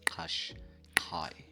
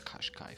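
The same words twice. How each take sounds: First: The word begins with a click sound. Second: The word begins with a plain K sound. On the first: The speaker calls it right. "You need to say it with a click guys" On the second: The speaker calls it wrong. "I don't know where you guys get this Qashqai from. There's no K there"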